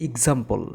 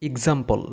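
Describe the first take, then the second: Both takes have the same delivery.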